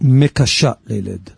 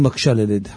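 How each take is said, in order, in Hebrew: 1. המילה הראשונה נשמעת כמו mekasha. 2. המילה הראשונה נשמעת כמו makshe. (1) "קשה ללדת" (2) "לא אומרים מקשה לילד, מקשה זה מקשה קושיות"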